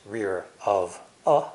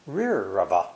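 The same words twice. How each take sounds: First: "rear", "of", "a" said slowly one by one; separate slow words. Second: "Rear of a" run together as one word; linked words. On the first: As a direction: spell out "rear of a" word by word. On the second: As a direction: glide from "Rear" straight into "of a". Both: Shown as a demonstration. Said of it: "are linked together".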